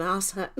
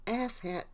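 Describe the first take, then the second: First: "ass" said as "arse", long open ah; "ass" with a long ah and silent r; Australian pronunciation. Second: "Ass" with a short flat a, as in cat; "Ass" rhyming with mass, no r; American pronunciation. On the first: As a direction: say "ass hat" the Australian way, like "ahs hat". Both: Shown as a demonstration. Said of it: "In Australia, we just call him".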